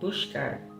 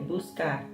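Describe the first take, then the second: First: It is said in a Rio de Janeiro accent. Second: It is said in a São Paulo accent.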